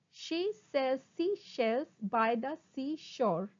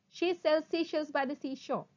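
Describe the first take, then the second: First: Slow, deliberate syllables; slow tongue twister. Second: Brisk, fluent run; sped-up tongue twister. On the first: Teacher models a twister for students, slowly. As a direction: separate each word carefully. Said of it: "first try saying them slowly". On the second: Teacher shows the twister at speed, quickly. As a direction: say it in one quick sweep. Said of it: "speed up". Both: Shown as a demonstration.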